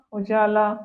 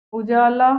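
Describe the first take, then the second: First: Said in the usual way. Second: उजाला said loud with a heavy la; deliberately wrong उजाला, louder; mispronounced उजाला. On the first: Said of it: "ये सारी शुद्ध है". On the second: Shown as a demonstration. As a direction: give उजाला as the louder faulty example. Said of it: "अशुद्ध वर्तनी".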